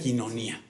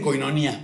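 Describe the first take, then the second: First: The first syllable sounds like 'kee'. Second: The first syllable sounds like 'koy'. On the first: This is how it is properly pronounced. The speaker calls it right. "pero se pronuncia quinonía" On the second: This is how people commonly say it. The speaker calls it wrong. "que le dicen coinonía"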